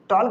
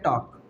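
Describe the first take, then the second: First: The L is sounded. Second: The L is silent. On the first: The speaker calls it wrong. "टॉल्क नहीं पढ़ेंगे इसको" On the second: The speaker calls it right. "लाला को हम क्या कर देंगे, चुप कर देंगे"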